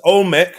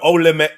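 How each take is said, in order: First: It is said with two syllables. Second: It is said with three syllables. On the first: The speaker calls it right. "It's Olmec" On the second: The speaker calls it wrong. "not Olemek"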